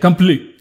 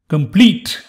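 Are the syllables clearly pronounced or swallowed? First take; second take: swallowed; clear. First: Some syllables are swallowed and unclear. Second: Every syllable is clearly enunciated. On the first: The speaker calls it wrong. "that's a poor word" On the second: The speaker calls it right. "That's the way to say it"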